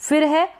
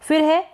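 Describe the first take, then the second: The two takes are said the same way.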